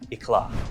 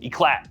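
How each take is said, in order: First: It is said with a French-style pronunciation. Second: It is said with an American-style pronunciation.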